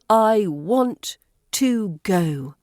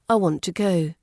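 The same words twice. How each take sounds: First: The word 'to' has a full, strong vowel. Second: The word 'to' is reduced to a weak schwa. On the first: The speaker calls it wrong. "This is too strong" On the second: The speaker calls it right. "Notice how the to becomes t"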